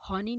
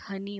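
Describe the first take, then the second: First: हॉनी with an open o sound; wrong vowel honey. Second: हनी whispered with a short a; correct honey. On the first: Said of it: "हॉनी नहीं होता". (गलत उच्चारण हॉनी, ऑ की आवाज़ के साथ) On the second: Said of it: "ये हनी होता है". (सही उच्चारण हनी, फुसफुसाकर) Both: Shown as a demonstration.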